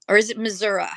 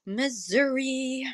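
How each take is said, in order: First: Missouri said as muh-zuh-ruh; Missouri with the final vowel as uh; other Missouri. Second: Missouri drawn out slowly as miz-OO-ree. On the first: Offering chat the other way, muh-zuh-ruh Missouri. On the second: Asking viewers how they say it, slow careful Missouri. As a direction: slowly sound out Missouri the first way. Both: Shown as a demonstration. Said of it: "Do you say Missouri or Missouri?".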